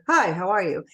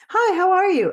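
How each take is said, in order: First: The voice is pitched lower. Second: The voice is pitched higher. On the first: The person on the call is a man. "As opposed to" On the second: The person on the call is a woman. "He'd go a little higher if it was a female"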